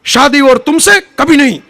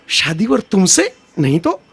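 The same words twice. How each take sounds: First: A touch of the Pan Pasand ad, loud and proud; hammed-up filmy refusal in Hindi; mock-heroic Hindi ad line, a little louder; defiant filmy refusal. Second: Deflate it into a timid plea; meek filmy plea. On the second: Retold or imitated. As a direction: Pan Pasand ad line turned timid. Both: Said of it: "ઓલા પાન પસંદ જેવો".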